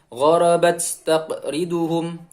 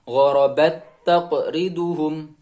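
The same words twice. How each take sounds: First: The t sound has an audible breathy release. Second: The t sound has no breathy release. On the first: The speaker calls it wrong. "Jadi bukan" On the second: The speaker calls it right. "tapi hamisnya hilang"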